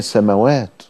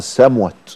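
First: There is a long vowel after the m. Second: There is no long vowel after the m. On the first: It is read as received by hearing. The speaker calls it right. "لكن هي السماوات" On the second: It is read exactly as the letters are written. The speaker calls it wrong. "لو نطقتها بالطريقه ... انطقها السموت"

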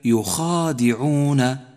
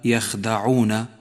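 First: The vowel after kh is long. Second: The vowel after kh is short. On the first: The speaker calls it right. "بل هي يخادعون" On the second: The speaker calls it wrong. "فإياك أن تهمل لفظها فتقول يخدعون"

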